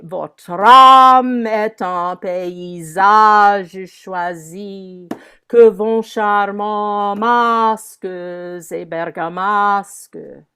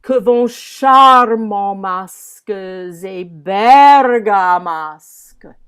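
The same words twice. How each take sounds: First: Slow, drawn-out chant, weight on âme and the end of paysage; measured French verse, stretched on the musical beats; rhythm of the meter. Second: Slow, loud stretch on char- of charmants and ber- of bergamasques; declaimed French, charmants and bergamasques swelled at their starts; insistance on first syllables. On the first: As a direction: intone it in metre, long on âme and -age of paysage. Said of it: "singing the rhythm of the meter". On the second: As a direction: lean hard into the openings of charmants and bergamasques. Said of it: "use this insistance".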